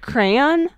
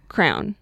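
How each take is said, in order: First: The word is said fully, every sound enunciated. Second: The word is squeezed into one short syllable. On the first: "like you enunciate the whole, every single letter" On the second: "they will say crown"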